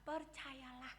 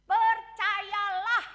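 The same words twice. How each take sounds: First: Soft echo. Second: Slow, loud, drawn-out Percayalah; preacher calling out "Percayalah" with a long rise; proclaimed. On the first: Quiet repeat of key word. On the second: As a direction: proclaim "Percayalah" slowly and loudly, rising at the end. Preacher proclaims key word. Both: Acted.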